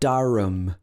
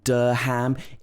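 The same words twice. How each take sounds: First: The last syllable is reduced to a weak 'um'. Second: The last syllable is said as a full 'ham'. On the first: The speaker calls it right. "it's Durham" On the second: The speaker calls it wrong. "it's not Durham"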